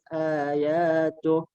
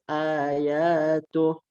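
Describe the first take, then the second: No difference in how they are said.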